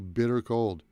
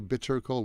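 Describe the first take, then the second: First: The t in bitter is a quick flap. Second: The t in bitter is a clear t. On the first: The speaker calls it right. "It's the reduced T sound" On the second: The speaker calls it wrong. "We don't say"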